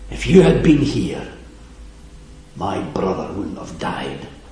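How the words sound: It is said with grief and anger.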